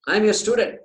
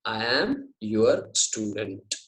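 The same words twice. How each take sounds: First: "I am your student" higher and louder; emphatic declaration. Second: Slow, word-by-word "I am your student"; very clear. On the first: Teacher restating Arjuna's declaration, loud and emphatic. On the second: Teacher translating Arjuna's words, very clearly and slowly. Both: Shown as a demonstration. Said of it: "He says it very clearly".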